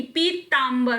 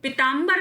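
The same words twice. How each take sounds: First: पीताम्बर said "pee-taambar"; long ee at the start of पीताम्बर; correct long vowel. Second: पीताम्बर said "pi-taambar"; short i at the start of पीताम्बर; wrong short vowel. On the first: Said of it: "पीताम्बर होता है". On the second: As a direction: clip the "pi" of पीताम्बर. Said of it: "पीताम्बर नहीं". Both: Shown as a demonstration.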